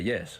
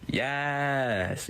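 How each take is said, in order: First: The word ends with a short s sound. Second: The word ends with a long, hissing s.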